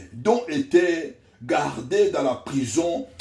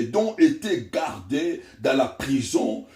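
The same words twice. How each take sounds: No difference in how they are said.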